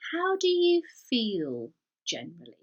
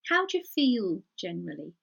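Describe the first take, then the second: First: Each word of 'how do you' is said clearly. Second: 'How do you' is squashed fast into 'how'd you'.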